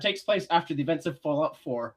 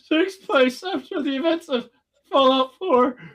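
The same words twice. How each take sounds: First: It is said in a plain, natural speaking voice. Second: It is said in a high, squeaky put-on voice. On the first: "I'm not doing that again" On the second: "the interior squeaky, annoying voice"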